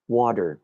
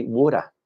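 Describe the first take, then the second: First: Said in the usual way. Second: "water" with a Kiwi vowel, /wʊtə/; Kiwi accent. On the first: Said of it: "when you're talking about". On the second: Shown as a demonstration. Teacher showing how New Zealanders say it, Kiwi accent. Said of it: "they would say".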